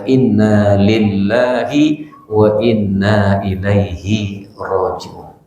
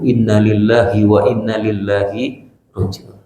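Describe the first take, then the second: First: Every sound of the phrase is pronounced fully. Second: Some sounds of the phrase are slurred or altered. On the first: The speaker calls it right. "Padahal yang benar adalah" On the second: The speaker calls it wrong. "mengucapkannya salah dengan kalimat seperti itu"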